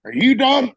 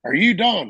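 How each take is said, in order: First: High, loud mock shout; imitated sergeant's demand. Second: Somewhat raised, insistent mock demand; imitated pointed repeat. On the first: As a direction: demand it loudly like an impatient sergeant. Gunny's retold impatient challenge. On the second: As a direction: press the question like an impatient sergeant. Gunny repeats the challenge.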